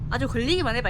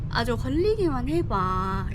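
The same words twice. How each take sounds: First: The final syllable is cut off sharply. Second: The final syllable is drawn out long. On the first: It sounds like authentic Jeolla dialect. The speaker calls it right. "전라도는 딱 끊어줘야 돼" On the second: It sounds like someone influenced by Seoul speech. The speaker calls it wrong. "끝을 끌면 안 돼"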